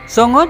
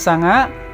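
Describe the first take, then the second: First: The vowels are pronounced as 'o'. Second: The vowels are pronounced as 'a'. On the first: This is the common Javanese form. "umumnya bahasa Jawa sekarang memakai bunyi vokal huruf O" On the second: This is the Banyumasan dialect form. "bahasa Panginyongan menggunakan A"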